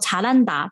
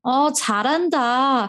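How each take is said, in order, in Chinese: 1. 这是用平实、真诚的赞美语气说的。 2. 这是用嘲讽、拖长音的讽刺语气说的。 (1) "如果你称赞别人做事情做得很好，你会跟他说查烂达" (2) "就是很嘲讽"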